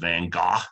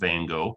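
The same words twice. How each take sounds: First: The name has a European pronunciation. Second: The name has an American pronunciation. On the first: "The European pronunciation is" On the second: "I pronounce Van Gogh's name in the American pronunciation"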